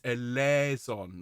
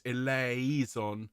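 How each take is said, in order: First: "eleison" slowly as e-LEH-zon; correct vowel. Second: "eleison" slowly as e-lay-EE-zon; wrong vowel. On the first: Choir leader fixing the vowel for singers, "eleison" as e-LEH-zon. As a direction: open "eh" in "eleison", no "ee" glide. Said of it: "get the vowel wrong". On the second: Choir leader warning singers off the error, "eleison" as e-lay-EE-zon. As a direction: put a separate "ee" into "eleison". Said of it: "not eleison". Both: Shown as a demonstration.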